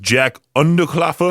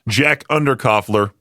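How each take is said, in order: First: The name is said with a German accent. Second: The name is said in a plain accent.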